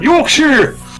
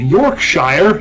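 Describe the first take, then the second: First: The ending is said as a reduced 'sher'. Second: The ending is said as a full 'shyer'. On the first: The speaker calls it right. "just sure" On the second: The speaker calls it wrong. "whenever you hear Americans talking about certain areas of the country that say Yorkshire"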